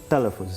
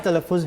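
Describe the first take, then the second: First: The word has an Uzbek pronunciation. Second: The word has an Urdu pronunciation. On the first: "has to become talaffuz" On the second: "my talaffuz"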